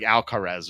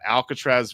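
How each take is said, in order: First: The name is said with no t before the r. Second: The name is said with a t before the r. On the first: The speaker calls it right. "but it's like Alcaraz or something" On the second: The speaker calls it wrong. "I mispronounced both names on purpose"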